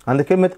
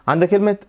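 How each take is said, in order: Both takes have the same delivery.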